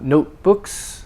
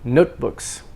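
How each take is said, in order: First: The stress is on the second syllable. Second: The stress is on the first syllable. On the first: The speaker calls it wrong. "Not notebooks" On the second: The speaker calls it right. "but notebooks. The note is stressed"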